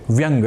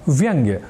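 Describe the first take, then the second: First: The word ends with a plain 'ng' sound. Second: The word ends with a 'gya' sound. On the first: The speaker calls it wrong. "बड़े धड़ल्ले से व्यंग इस रूप में प्रयुक्त पाते हैं" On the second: The speaker calls it right. "एक शब्द है व्यंग्य"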